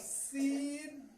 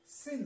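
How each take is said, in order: First: The vowel is a long ee sound. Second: The vowel is a short i sound. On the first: The meaning of the word changes. The speaker calls it wrong. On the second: It means sin. The speaker calls it right.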